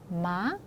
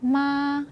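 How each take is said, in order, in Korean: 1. 끝에서 음이 살짝 올라가요. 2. 높은 음이 평평하게 길게 유지돼요. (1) "끝을 올려서" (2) "높고 길게"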